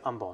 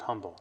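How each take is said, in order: First: The word begins without an H sound. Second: The word begins with an H sound. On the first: The speaker calls it right. "You have to say Humble, even though there's an H" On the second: The speaker calls it wrong. "not Humble"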